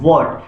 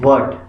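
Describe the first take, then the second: First: It begins with a W sound, lips rounded. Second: It begins with a V sound, lips not rounded. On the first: The speaker calls it right. "होठों को गोल करके आपने पढ़ना है" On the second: The speaker calls it wrong. "वर्ट का मतलब हम वी से पढ़ रहे हैं।"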